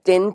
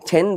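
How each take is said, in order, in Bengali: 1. t ধ্বনিটি বাতাসের ফুঁ ছাড়া বলা হয়। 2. t ধ্বনিটি বাতাসের ফুঁ দিয়ে বলা হয়। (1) "টেন কে" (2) "যদি ট সাউন্ডকে আমরা ঠ বলি"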